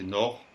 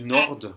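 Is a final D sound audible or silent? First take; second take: silent; audible. First: No D sound is heard at the end. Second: A D sound is heard at the end. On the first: The speaker calls it right. "Le D ne se prononce pas du tout à la fin" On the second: The speaker calls it wrong. "J'ai entendu nord"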